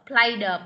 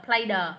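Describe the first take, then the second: No difference in how they are said.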